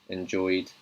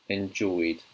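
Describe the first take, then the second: The two takes are said the same way.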